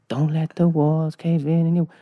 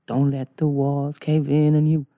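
First: Chanted, slow club-remix vocal hook. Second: Slow, measured sung line; imagined voice chanting. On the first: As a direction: chant it like a sampled dance-track hook. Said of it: "it was like a remix". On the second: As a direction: chant it slowly, drawing out the words. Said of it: "All I hear is". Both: Retold or imitated.

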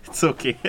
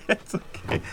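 First: Said in the usual way. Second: Breathy laugh through the words. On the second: Real, not acted. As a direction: laugh it out softly.

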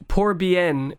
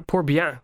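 First: "Pour bien" with the n of bien sounded; anglicised French. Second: "Pour bien" with bien ending in a nasal vowel; corrected French pronunciation. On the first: Reading a comb's French inscription, "Pour bien" with an anglicised n. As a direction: say "Pour bien" English-style, bien ending in a clear n. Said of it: "excuse my French accent there". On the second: Correcting own French to the host, "Pour bien" with a nasal ending. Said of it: "sorry, excuse my French accent". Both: Real, not acted.

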